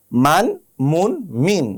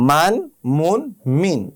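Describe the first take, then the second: No difference in how they are said.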